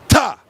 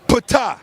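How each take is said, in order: First: The name starts with a plain T. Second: The name starts with a sounded P. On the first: The speaker calls it right. "You do not pronounce the P. The name is Ta" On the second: The speaker calls it wrong. "the name is not Ptah"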